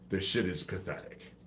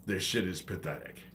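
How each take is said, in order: Both takes have the same delivery.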